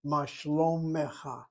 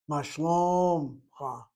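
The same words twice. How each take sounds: First: Ma shlomecha said slowly, shlo-me-cha; slow textbook Ma shlomecha; careful pronunciation. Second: Ma shlomcha said very slowly, the shva silent; the Israeli shlomcha, slowed down; wrong pronunciation. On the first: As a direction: sound every syllable of shlomecha. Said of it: "How are you?". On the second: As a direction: shlomcha blended into two syllables. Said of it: "but that's the wrong pronunciation". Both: Shown as a demonstration.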